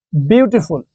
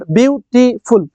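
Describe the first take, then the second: First: Said in the usual way. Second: বিউটিফুল broken into three slow beats, বিউ-টি-ফুল; split into syllables. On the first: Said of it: "এটাকে আমি একবারে বলতে পারতেছি". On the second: Shown as a demonstration. Teacher counting syllables for students, বিউটিফুল split into three slow parts. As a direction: say বিউটিফুল slowly, pausing between its three syllables. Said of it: "কিভাবে বলতেছি?".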